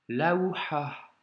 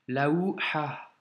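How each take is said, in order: The two takes are said the same way.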